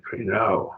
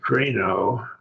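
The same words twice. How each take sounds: First: Crino with the stress on the last syllable, kri-NO; future-tense crino. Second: Crino with the stress on the first syllable, KRI-no, ending on a rise; present-tense crino. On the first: Teacher contrasting Greek accent placement for students, crino stressed last syllable. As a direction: shift the weight of crino onto its final syllable. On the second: Teacher contrasting Greek accent placement for students, crino stressed first syllable. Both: Shown as a demonstration. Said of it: "the difference between the two words for I judge".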